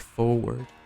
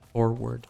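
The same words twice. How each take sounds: First: The R in the first syllable is dropped. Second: The R in the first syllable is clearly pronounced. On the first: "most people say forward" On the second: "the first time I ever hear someone pronounce the R in forward"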